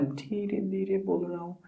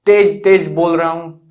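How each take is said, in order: First: Soft voice demo. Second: Strong, emphatic loud delivery; loud voice demo. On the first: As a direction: drop to a very soft, hushed level. (धीमी, दबी आवाज़ में) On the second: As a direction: raise the volume to demonstrate. (तेज़, ऊँची आवाज़ में ज़ोर से) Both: Shown as a demonstration.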